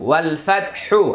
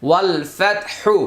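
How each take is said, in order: The two takes are said the same way.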